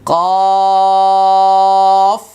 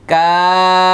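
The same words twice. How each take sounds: First: কফ loud and high, thick from the throat; heavy letter in contrast. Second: কাফ clear and louder, not thick; light letter in contrast. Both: Shown as a demonstration. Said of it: "এটা".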